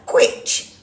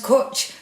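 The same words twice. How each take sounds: First: "Quitch" with a kw sound and short i; "Quitch", sounded out from its spelling; read as spelt. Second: "Kutch" with a plain k and the vowel of put; "Kutch", one syllable, no w glide; correct Welsh pronunciation. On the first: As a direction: say "Quitch" to rhyme with witch. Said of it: "I've not seen it spelt like that". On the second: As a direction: say "Kutch" to rhyme with butch. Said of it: "it's pronounced Kutch". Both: Real, not acted.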